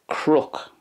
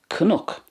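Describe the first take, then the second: First: It is one syllable with an 'r'-like sound. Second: An extra vowel is inserted after the first consonant. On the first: "in the other two dialects, it's crook" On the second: "That's the way it's pronounced in Munster"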